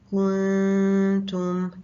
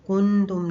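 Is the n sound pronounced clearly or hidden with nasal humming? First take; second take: hidden; clearly. First: The n is hidden in a nasal hum. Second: The n sound is pronounced fully and clearly. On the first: The speaker calls it right. "इसको इजहार और इदगाम के दरमियान में पढ़ा" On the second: The speaker calls it wrong. "हमने कुंतुम नहीं पढ़ा, इजहार नहीं किया"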